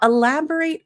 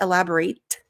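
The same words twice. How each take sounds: First: The final T is soft and unaspirated. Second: The final T is strongly aspirated. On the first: The speaker calls it right. "Notice here for American English" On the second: The speaker calls it wrong. "we don't say elaborate. So those aspirated T's are more characteristic of British English"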